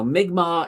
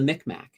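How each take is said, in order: First: The name is said in the Mi'kmaq form. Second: The name is said in the older Micmac form. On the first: This is the form the people themselves use. The speaker calls it right. "Mi'kmaq is how it is" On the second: This is the long-used local form of the name. The speaker calls it wrong. "we've always called them the Micmac for the longest time"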